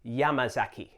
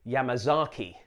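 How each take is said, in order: First: Yamazaki stressed on YA, the rest short and even; YA-ma-za-ki, front-stressed; stress on first syllable. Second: Yamazaki with a long stressed ZAH, ya-ma-ZAH-ki; anglicised Yamazaki, heavy third syllable; Anglophone mispronunciation. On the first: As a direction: hit YA in Yamazaki, then keep the syllables light. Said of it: "put the stress on the first syllable". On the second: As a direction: drag the stress onto the ZA of Yamazaki, English style. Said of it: "the Anglophone tendency to say". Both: Shown as a demonstration.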